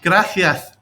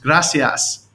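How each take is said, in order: First: The s sounds are lisped like th. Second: The s sounds are plain hissing sounds.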